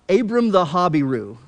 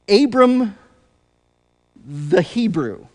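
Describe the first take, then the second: First: The last word is said as Habiru. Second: The last word is said as Hebrew. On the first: This is the ancient pronunciation. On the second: This is the modern pronunciation.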